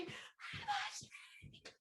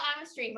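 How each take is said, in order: First: Very slow, stretched whispered shout; whisper yell. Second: Said in the usual way. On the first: Shown as a demonstration. Leading everyone in one more round, whisper yell. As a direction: yell it without voice, all whisper. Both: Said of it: "We are going to all whisper yell".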